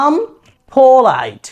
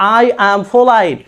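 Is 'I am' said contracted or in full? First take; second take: contracted; full. First: I am is shortened into one syllable. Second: I am is said as two full words. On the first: It sounds smart and advanced. "তারা বলবো আম polite" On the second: It sounds basic, like a child speaking. "আই অ্যাম এইটা বাচ্চারা বলে"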